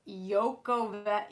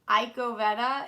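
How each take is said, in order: First: The name starts with a 'yo' sound. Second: The name starts with an 'eye' sound. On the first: The speaker calls it right. "it's Yoko Vetta" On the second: The speaker calls it wrong. "So it's not Iko Vetta"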